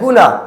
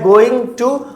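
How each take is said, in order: First: The words are merged into one short word. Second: Both words are said fully and separately. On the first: This is the modern form. "Modern English के according इसे गुना बोला जाता है" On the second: This is the traditional form. "हम लोगों ने आज तक बोला है गोइंग टू"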